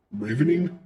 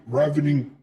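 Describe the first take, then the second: First: "ravening" with a long a, as in "rave"; long-a pronunciation. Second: "ravening" with a short a, as in "ravel"; short-a pronunciation. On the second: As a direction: say "ravening" starting like "rav" in "ravel". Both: Shown as a demonstration. Trying pronunciations of an unfamiliar word.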